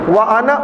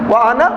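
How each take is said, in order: Both takes have the same delivery.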